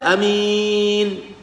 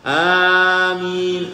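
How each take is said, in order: First: The first vowel is kept short. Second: The first vowel is drawn out long. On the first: "bacaan yang kedua ada juga yang membaca amin" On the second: "Seperti orang membaca Yasin, ... maksudnya panjangnya sama"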